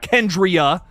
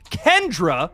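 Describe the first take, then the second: First: The name is said with three syllables. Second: The name is said with two syllables. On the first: The speaker calls it wrong. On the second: The speaker calls it right.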